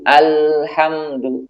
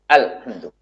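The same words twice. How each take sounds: First: The L sound flows only briefly. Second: The L sound is cut off abruptly. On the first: The speaker calls it right. "Suaranya harus mengalir namun sedikit" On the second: The speaker calls it wrong. "Ini suaranya tertahan. Tidak mengalir"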